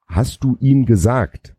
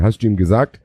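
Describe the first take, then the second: First: "Hast du ihm gesagt" drawn out slowly and higher, left open; slow, unfinished question on "Hast du ihm gesagt"; stammered, trailing question. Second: Said in the usual way. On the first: Shown as a demonstration. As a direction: stretch "Hast du ihm gesagt" as if dots follow. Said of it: "Punkt, Punkt, Punkt, stammelte Peter". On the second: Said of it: "stammelte Peter".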